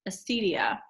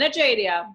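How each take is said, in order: First: The word is said with English-style pronunciation. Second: The word is said with Italian-style pronunciation. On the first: "That is a new, not new pronunciation, but new for me" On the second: "I was pronouncing it like an Italian"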